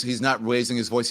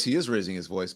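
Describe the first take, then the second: First: "not" given the weight, the rest even; stress on not. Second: "is" stressed to correct, said lower and softer. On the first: The commentator first claims one man is calm, stressing "not". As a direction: lean on "not" in "He's not raising his voice". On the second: The commentator correcting himself about the vice president, stressing "is". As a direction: lean hard on "is" in "He is raising his voice". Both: Shown as a demonstration.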